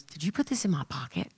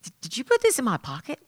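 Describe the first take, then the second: First: Low, soft retold question; retold puzzled question. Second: Higher, quick stammered question; retold repeated question. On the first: Jay asking her about a gift card, quiet retold question. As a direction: ask it quietly, pitched down. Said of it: "and he goes". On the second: Jay asking Easy about the gift card, higher retold question. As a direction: stumble into it, pitched up and quick. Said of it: "he goes".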